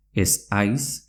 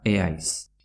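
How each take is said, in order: First: Said in the usual way. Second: "eaiz" with no s after the e; Z dropped before H. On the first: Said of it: "se pronuncia eaiz". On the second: Shown as a demonstration. Teacher repeats the merged form, Z dropped. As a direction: glide "eaiz" as e-ais. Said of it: "se pronuncia".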